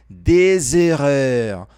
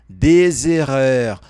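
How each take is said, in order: No difference in how they are said.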